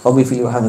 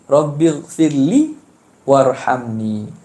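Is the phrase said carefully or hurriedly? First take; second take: hurriedly; carefully. First: It is rushed and mumbled, words run together. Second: It is said slowly and carefully, each word clear. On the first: The speaker calls it wrong. "laju ... jebuk bunyi jebuk-jebuk gitu je" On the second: The speaker calls it right. "sebut biar molek"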